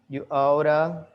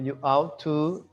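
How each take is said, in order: First: It is reduced to a quick blended 'oughta'. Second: Both words are said fully and separately. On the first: It is the informal way to say it. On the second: It is the more formal way to say it.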